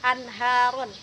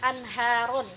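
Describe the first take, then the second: No difference in how they are said.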